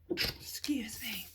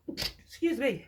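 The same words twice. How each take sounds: First: Soft whispered excuse me. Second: Said in the usual way. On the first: Real, not acted. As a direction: whisper it, slow and apologetic.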